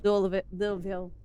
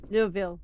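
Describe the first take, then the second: First: Louisville said as lull-vul, slurred Southern way. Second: Louisville said again as lull-vul, tried once more; one more go at Louisville as lull-vul. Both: Shown as a demonstration. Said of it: "you may wanna stick with Louisville".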